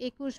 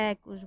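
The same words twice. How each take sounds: First: একুশ with a closed e, like "ekush"; একুশ as "ekush", the mistaken reading; wrong way. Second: একুশ with an open e, like "ækush"; একুশ said "ækush", as it is really spoken; correct open e. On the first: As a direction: say একুশ with the plain closed e sound. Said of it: "তুমি একুশ বলছো না". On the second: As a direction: open the first vowel of একুশ wide, "ækush". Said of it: "একুশ বলছো". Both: Shown as a demonstration.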